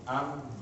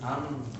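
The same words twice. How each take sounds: First: The sound resonates freely through the nose. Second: The same.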